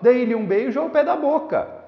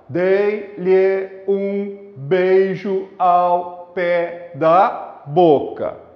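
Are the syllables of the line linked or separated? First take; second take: linked; separated. First: Neighbouring vowels merge into one smooth, rhythmic flow. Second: Each syllable is said separately, with choppy breaks. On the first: The speaker calls it right. "Quando eu leio o poema dentro do ritmo, eu falo assim" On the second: The speaker calls it wrong. "ninguém, em sã consciência, ... vai ler um verso desta forma"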